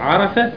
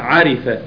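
First: The vowel after the r is a. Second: The vowel after the r is i. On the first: The speaker calls it right. "والصحيح عرف بفتح الراء" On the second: The speaker calls it wrong. "عرف بكسر الراء خطأ"

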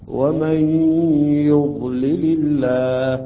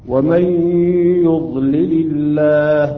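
The two takes are said the same way.

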